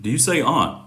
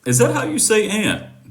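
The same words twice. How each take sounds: First: "aunt" with an open ah vowel; aunt said as ahnt. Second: "aunt" with the short a of "cat"; aunt said like ant. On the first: Offering the other pronunciation, "aunt" as ahnt. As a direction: say "aunt" to rhyme with font. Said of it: "Or do you say aunt". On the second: Asking how he says the word, "aunt" as ant. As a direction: say "aunt" just like the insect ant. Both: Shown as a demonstration.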